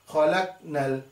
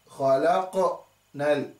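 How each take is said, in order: First: The q is closed without any echo. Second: The q is released with an echoing bounce. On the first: The speaker calls it wrong. "It's not khalaqnal" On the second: The speaker calls it right. "the qaf sukun is a huruf al-qalqala"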